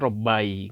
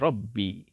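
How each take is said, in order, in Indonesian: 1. Bunyi b diikuti vokal a. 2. Bunyi b diikuti vokal i. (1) "tidak bisa kita mengatakan robai, nggak bisa" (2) "yang cocok ... adalah kasrah, maka jadi robbi"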